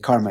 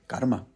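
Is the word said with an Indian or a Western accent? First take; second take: Western; Indian. First: It is said with an ordinary Western accent. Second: It is said with an attempted Sanskrit accent. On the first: This is how people in the West say it. "as we say here in the West" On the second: This is how native Sanskrit speakers say it. "or as they would say"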